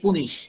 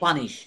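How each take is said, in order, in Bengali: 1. প্রথম স্বরধ্বনিটি put শব্দের 'oo' এর মতো শোনায়। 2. প্রথম স্বরধ্বনিটি cup শব্দের 'uh' এর মতো শোনায়। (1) "সে উচ্চারণ করতেছে পুনিশ" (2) "আসলে এটা উচ্চারণ কিন্তু পানিশ"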